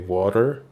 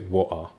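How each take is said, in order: First: The middle consonant is a clear consonant. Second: The middle consonant is a glottal stop. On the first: "when an American would say water" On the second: "some people in the U K would say wa'a"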